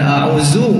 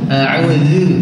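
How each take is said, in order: First: The middle consonant is a plain z sound. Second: The middle consonant is a heavier dh sound. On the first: The speaker calls it wrong. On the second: The speaker calls it right.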